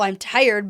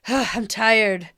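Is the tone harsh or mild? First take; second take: harsh; mild. First: The line is said in a harsh tone. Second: The line is said in a milder tone. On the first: The speaker calls it wrong. "I don't think he's saying that harsh" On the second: The speaker calls it right. "that's better. that that's more the tone I was getting"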